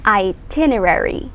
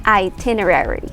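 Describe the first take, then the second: The two takes are said the same way.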